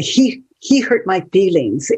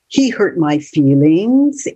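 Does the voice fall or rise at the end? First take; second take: fall; rise. First: It ends with a falling, statement tune. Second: It ends with a rising, questioning tune.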